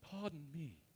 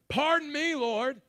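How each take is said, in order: First: It is said in a polite, humble tone. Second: It is said in a sarcastic, attitude-filled tone.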